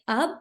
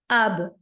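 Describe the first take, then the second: First: The final b stops plainly with no bounce. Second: The final b is released with a bouncing echo. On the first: The speaker calls it wrong. "We cannot say it like ab" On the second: The speaker calls it right. "but we have to make it bouncing. Ab, like that"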